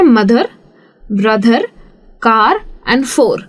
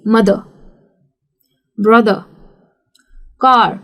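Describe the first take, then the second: First: ब्रदर with a strong r at the end; heavy r as Indians say it; Indian rolled r. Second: ब्रदर with no r sound; British non-rhotic मदर, ब्रदर, कार; silent r. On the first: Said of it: "तो हम India में क्या करते हैं ना". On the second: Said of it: "तो फिर वो हो जाता है silent". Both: Shown as a demonstration.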